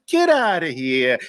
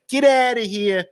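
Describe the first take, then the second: First: A touch of Brooklyn on "Get outta here". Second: Brooklyn get outta here. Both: Shown as a demonstration. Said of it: "That's how we used to say it in Brooklyn".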